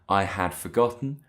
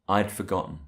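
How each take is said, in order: First: The word had is said in full. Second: The word had is contracted to I'd. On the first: The speaker calls it wrong. "We don't say I had forgotten" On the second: The speaker calls it right. "we say I'd forgotten"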